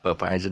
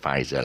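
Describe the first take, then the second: First: The P at the start is sounded. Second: The P at the start is silent. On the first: The speaker calls it wrong. "People pronounce it wrongly. It's not per Pfizer" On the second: The speaker calls it right. "The P is silent"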